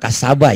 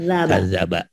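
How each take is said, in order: First: The middle consonant is an 's' sound. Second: The middle consonant is a 'dh' sound. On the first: The speaker calls it wrong. "Ibu kadang-kadang suka kasaba ya" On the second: The speaker calls it right. "zalnya terlihat ya kadzaba"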